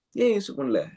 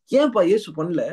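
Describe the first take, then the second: First: Said in the usual way. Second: High, louder challenge falling at the end; challenging question. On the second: Real, not acted. Preacher asks congregation why Jesus didn't, challenging question. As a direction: throw the question out high and emphatic. Question put to crowd, then repeated.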